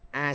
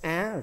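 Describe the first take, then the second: First: The vowel is said on a level tone. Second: The vowel is said on a high rising tone.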